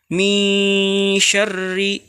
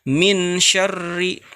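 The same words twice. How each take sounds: First: The n is hidden in a nasal hum. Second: The n is pronounced clearly and distinctly. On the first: The speaker calls it right. "Harusnya min syarri dibaca ikhfa" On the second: The speaker calls it wrong. "malah dibaca dengan izhar"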